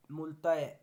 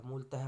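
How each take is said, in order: First: मूलतः said loudly as 'mool-taa-e'; wrong ending. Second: Said in the usual way. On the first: Shown as a demonstration. Teacher showing a mistake, मूलतः ending 'taa-e' without h. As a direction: lose the breathed 'h' in मूलतः. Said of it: "गलत है". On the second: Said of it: "होता है".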